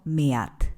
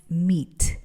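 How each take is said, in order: First: Meat with e and a both sounded, "me-at"; wrong pronunciation. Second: Meat said "meet", ea as a long i sound; correct pronunciation. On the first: Teacher showing a learner error, meat said "me-at". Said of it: "no meat". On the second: Teacher correcting learners, meat said like "meet". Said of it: "aquí E A se pronuncia I". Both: Shown as a demonstration.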